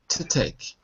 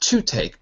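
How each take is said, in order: First: The word to is quick and reduced. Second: The word to is said fully, not reduced. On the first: The speaker calls it right. "but to take" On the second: The speaker calls it wrong. "Not to take"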